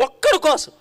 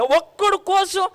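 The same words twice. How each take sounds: First: Said in the usual way. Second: "ఒక్కడి కోసం" drawn out slow and higher, "ఒక్కడి" leaned on; "ఒక్కడి కోసం" stretched slow, pitched higher; stretched emphasis. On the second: Shown as a demonstration. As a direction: savour "ఒక్కడి" slowly in wonder. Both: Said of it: "నాకు ఎంత బాగా అనిపిస్తుంది".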